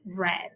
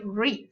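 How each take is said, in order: First: The vowel is short, like in 'red'. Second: The vowel is long, like in 'reed'. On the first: The action happened in the past. "but in past we say read" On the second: The action happens in the present. "In present we say read"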